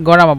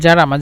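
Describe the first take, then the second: First: The word begins with a hard g sound. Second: The word begins with a soft j sound. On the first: "গরামা বলে এখানে" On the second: "জারামা থেকে"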